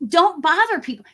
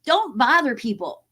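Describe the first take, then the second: First: "don't" hit higher and louder in don't bother people; "don't" stressed, pitch jumping up; emphatic repeat. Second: Said in the usual way. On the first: Shown as a demonstration. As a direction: punch "don't" like a scolding. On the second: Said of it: "walk the streets and bother people".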